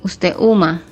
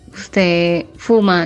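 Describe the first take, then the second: First: The second word starts with an h sound. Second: The second word starts with an f sound. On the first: The speaker calls it wrong. "dice usted huma" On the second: The speaker calls it right. "en lugar de decir usted fuma"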